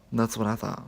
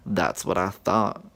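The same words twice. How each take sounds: First: Said in the usual way. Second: Slow, low and pointed; That's what I thought dragged out, low and loud; I-told-you-so drawl; smug. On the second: Retold or imitated. Smug reply to recommended friends.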